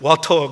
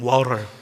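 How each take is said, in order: First: It is said with a flat Korean accent. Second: It is said with a rolled American accent. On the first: "한국에서는" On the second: "거기는 워터 이러고"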